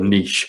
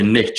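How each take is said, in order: First: It is said the English way, like 'neesh'. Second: It is said the American way, like 'nitch'.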